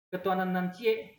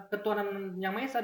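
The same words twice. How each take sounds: First: Light Minang accent on "nan cie"; Minang dialect. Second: Said in the usual way. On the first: Shown as a demonstration. Teacher contrasting two versions with the same meaning, Minang dialect. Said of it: "logat Minang misalnya". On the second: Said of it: "sama artinya".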